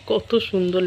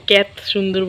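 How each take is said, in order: First: Said in the usual way. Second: কত slips out as ক্যাত; slip of the tongue. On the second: Real, not acted. Vlogger catching her slip at the window view, ক্যাত for কত. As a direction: say ক্যাত with a flattened "ya" vowel in place of কত. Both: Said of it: "ক্যাত সুন্দর বলছি".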